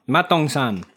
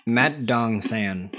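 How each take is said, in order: First: "Mat Dong San" said the Korean way, at normal pace, with the vowels held open; correct Korean. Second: "Mat Dong San" read slowly with flat American vowels, "San" like "sand". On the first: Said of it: "But that's wrong". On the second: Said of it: "if you were to read it as deeply American". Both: Shown as a demonstration.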